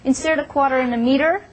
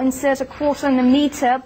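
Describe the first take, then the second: First: The t sounds are flapped, almost like d. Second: The t sounds are crisp and clear.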